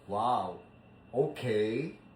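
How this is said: It sounds snobbish and haughty.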